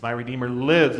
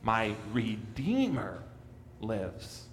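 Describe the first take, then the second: First: My Redeemer lives with lives landing firmly on a falling tone; stress on lives. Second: Redeemer drawn out slowly and stressed, lives dropped quietly; slow, Redeemer carries the weight. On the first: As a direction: lean on the word lives. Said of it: "We so often emphasize the last part". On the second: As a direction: linger on Redeemer, let lives fall away. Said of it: "second to last word is really important". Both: Shown as a demonstration.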